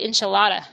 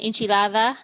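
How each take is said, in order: First: The d is a hard, plain d sound. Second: The d is soft, close to a th sound. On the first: "instead of" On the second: "my D's are very soft with the T H sound"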